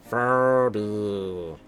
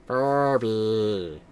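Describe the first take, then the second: No difference in how they are said.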